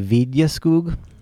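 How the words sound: The name is said with a Swedish pronunciation. "So they would say"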